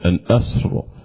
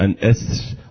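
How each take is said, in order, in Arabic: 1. تُنطق الراء مفخمة وثقيلة. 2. تُنطق الراء مرققة وخفيفة. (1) "وليست أن أسر" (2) "وقف أن أسر"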